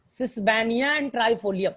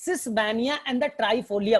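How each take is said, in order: First: Slow, word by word, for the class to note; slow dictation. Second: Slowly again, each word separate; slow dictation repeat. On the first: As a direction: spell it out slowly for students. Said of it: "teacher dictating plant names". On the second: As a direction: drill the name into memory. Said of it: "teacher repeats names to memorise". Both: Shown as a demonstration.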